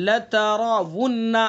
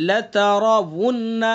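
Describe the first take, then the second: The two takes are said the same way.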